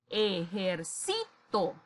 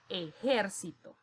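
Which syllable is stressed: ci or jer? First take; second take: ci; jer. First: The stress falls on the syllable ci. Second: The stress falls on the syllable jer. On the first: "le coloco su mayor fuerza de voz en sí" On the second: "su mayor fuerza de voz recae en ger"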